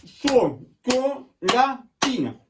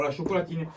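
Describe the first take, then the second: First: High, slow "chocolatine" in four beats; syllable by syllable. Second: Said in the usual way. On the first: Shown as a demonstration. Teacher has pupils count the parts, syllable by syllable. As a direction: chop "chocolatine" into cho, co, la, tine. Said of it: "T'as compté?". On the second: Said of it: "Quatre syllabes".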